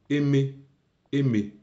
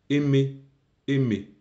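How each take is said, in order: Both takes have the same delivery.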